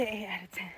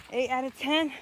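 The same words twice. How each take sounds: First: Soft unvoiced whisper. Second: Said in the usual way. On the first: Real, not acted. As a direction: whisper the verdict. Rating repeated in a whisper.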